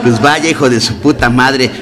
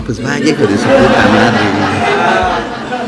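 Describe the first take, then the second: First: Said in the usual way. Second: "Pues vaya, hijo de su puta madre" stretched very slowly, each word drawn out; slow, drawn-out repeat. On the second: Shown as a demonstration. (despacio y alargado: "Pues vaya, hijo de su puta madre")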